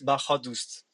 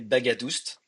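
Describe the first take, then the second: First: The middle consonant is an h sound. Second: The middle consonant is a hard g sound. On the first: This is the original Iranian way of saying the name. "The G H make a H sound, and the second A is a different A" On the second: This is the French way of saying the name. "I come from France, and my name is you can you will say Bagadust"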